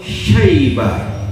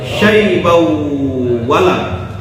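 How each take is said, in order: First: The word ends in a full stop. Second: The word ending runs nasally into the next word. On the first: The reciter pauses at this word. "Kalau berhenti" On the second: The reciter continues without pausing. "kalau disambung"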